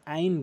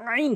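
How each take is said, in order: First: "আইন" with a plain open a, no squeeze; wrong ain demo. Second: "আইন" squeezed hard in the throat at the start; pressed ain. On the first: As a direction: show the mistake, "আইন" as an easy everyday vowel. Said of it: "মারাত্মক লেভেলের ভুল করে". ("আইন" চাপ ছাড়া ভুল উচ্চারণ) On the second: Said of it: "চাপ দিয়ে বলতে হবে". ("আইন" গলায় চাপ দিয়ে) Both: Shown as a demonstration.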